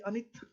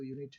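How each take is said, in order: First: The word begins with a short 'uh' vowel. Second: The word begins with a 'yoo' sound. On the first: The speaker calls it wrong. "इसको अनित कहना चाहिए" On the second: The speaker calls it right. "ये तो यूनिट है"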